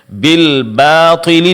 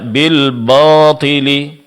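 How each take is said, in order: First: The long a vowel sounds light and thin. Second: The long a vowel sounds heavy and thick.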